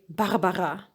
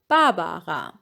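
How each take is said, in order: First: The R sounds are clearly pronounced. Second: The R sounds are dropped. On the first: This is how a Spanish speaker says it. "A Spanish speaker would say Barbara" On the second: This is how Germans say it. "but we say Barbara. So we just ignore the R"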